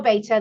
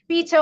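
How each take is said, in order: First: Beta as BAY-tuh; American "beta". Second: Said in the usual way. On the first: Shown as a demonstration. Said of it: "how they say it in the U S". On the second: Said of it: "they mean the same thing".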